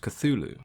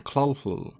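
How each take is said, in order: First: It sounds smooth, with ordinary English sounds. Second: It sounds throaty, like coughing. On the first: It is the practical, widely accepted form. "the pronunciation that is widely accepted and used today" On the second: It is meant as an alien tongue. "the most common being Clolhl ... sounds like you're about to cough up a furball"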